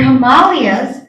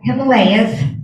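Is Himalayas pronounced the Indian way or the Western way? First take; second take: Indian; Western. First: The word gets its Indian pronunciation. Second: The word gets its usual Western pronunciation.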